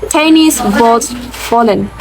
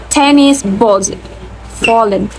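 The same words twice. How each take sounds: No difference in how they are said.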